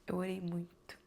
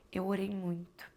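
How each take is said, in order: Both takes have the same delivery.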